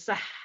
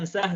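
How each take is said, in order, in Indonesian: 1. Bunyi h di akhir itu desis yang kuat dan berdesah. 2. Bunyi h di akhir itu h yang biasa dan ringan. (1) "tapi sah" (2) "Bukan sah"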